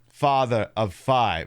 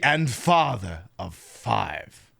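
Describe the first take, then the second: First: It is said flatly, like a plain line read. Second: It is said in a dark, sinister way.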